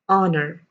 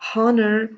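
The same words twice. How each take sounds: First: The word begins with a vowel, no H. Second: The word begins with an audible H sound. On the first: The speaker calls it right. "pronounce that as honor" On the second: The speaker calls it wrong. "If you have been pronouncing it as honor, stop that"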